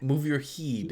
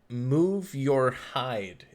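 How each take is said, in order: First: The last word rhymes with 'need'. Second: The last word rhymes with 'ride'. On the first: The speaker calls it right. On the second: The speaker calls it wrong. "Am I saying that right?"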